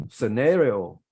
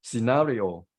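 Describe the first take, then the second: First: "scenario" as suh-NAIR-ee-oh; American-style "scenario", NAIR strongest; American pronunciation. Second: "scenario" as si-NAH-ri-o; British-style "scenario", NAH strongest; British pronunciation. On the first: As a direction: stress an "air" sound in the second syllable of "scenario". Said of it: "American accent, you can say". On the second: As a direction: stress the second syllable of "scenario" with a long "ah". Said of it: "Stress is on the second syllable". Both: Shown as a demonstration.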